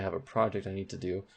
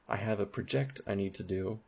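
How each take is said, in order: First: The stress in project is on the first syllable. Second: The stress in project is on the second syllable. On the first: The speaker calls it right. "You say" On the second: The speaker calls it wrong. "you would never say"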